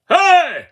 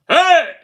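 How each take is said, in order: No difference in how they are said.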